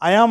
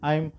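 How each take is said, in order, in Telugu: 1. ఇది రెండు వేరు వేరు పదాలుగా అంటారు. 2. ఇది ఒకే కుదించిన అక్షరంగా అంటారు. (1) "ఐఆమ్ ఐఆమ్ అన్నటువంటి ఒక రెండు వర్డ్స్" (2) "కాంట్రాక్షన్ ఎలా ప్రొనౌన్స్ చేయాలి అంటే ఐమ్"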